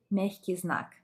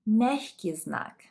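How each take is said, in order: First: Said in the usual way. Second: Мягкий знак said slowly and louder, stress on мяг; careful Russian. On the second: Shown as a demonstration. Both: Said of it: "this sign is called".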